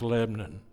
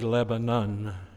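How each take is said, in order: First: The word is said with a Tennessee pronunciation. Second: The word is said with a standard pronunciation. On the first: "the way you say it in Tennessee is Lebanon" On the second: "it's a little harder to say Lebanon"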